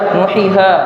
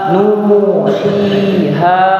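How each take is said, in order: First: The vowel is cut short, without lengthening. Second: The vowel is held long, for two beats. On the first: The speaker calls it wrong. "tidak boleh kemudian kita baca" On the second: The speaker calls it right. "dibaca panjang dengan panjang dua harokat"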